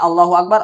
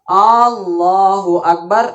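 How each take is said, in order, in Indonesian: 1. Vokal pertama di 'Allahu' dibaca pendek. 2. Vokal pertama di 'Allahu' dibaca panjang. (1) "artinya Allahu Akbar, Allah Maha Besar" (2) "A-nya panjang"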